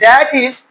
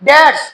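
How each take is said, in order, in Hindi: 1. यह दो पूरे शब्दों के रूप में बोला जाता है। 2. यह एक संक्षिप्त (कॉन्ट्रैक्टेड) शब्द के रूप में बोला जाता है।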